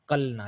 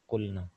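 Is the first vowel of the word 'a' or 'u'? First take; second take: a; u. First: The first vowel is an 'a' sound. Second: The first vowel is a 'u' sound. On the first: The speaker calls it wrong. "लेकिन कलना नहीं है यहाँ पे" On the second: The speaker calls it right. "बल्कि क्या पढ़ा जा रहा है"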